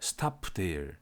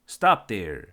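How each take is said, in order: First: The final p of stop is released. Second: The final p of stop is unreleased. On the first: The speaker calls it wrong. "저 사람 외국인인가 보다" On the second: The speaker calls it right. "이렇게 얘기해야 되는데"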